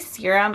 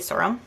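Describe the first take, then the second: First: The word is said carefully at normal pace. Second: The word is said quickly with a changed vowel. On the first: "Sometimes I say serum" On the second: "when I try to say it really fast"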